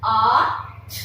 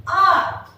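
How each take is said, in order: First: "आर्ट" split into ar, pause, t; "आर्ट" with a drawn ar and separate released t; sounded out. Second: Said in the usual way. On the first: Shown as a demonstration. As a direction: sound out "आर्ट" in two phonics pieces. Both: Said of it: "हम कैसे pronounce करेंगे".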